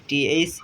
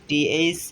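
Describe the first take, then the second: Both takes have the same delivery.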